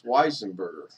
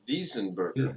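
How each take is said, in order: First: The name begins with a W sound. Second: The name begins with a V sound. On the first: This is the usual local way of saying the name. "a lot of people would not pronounce it as Weisenberger" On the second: This is how people in Germany would say the name. "They would probably pronounce it as Wiesenberger. With a V for Victor"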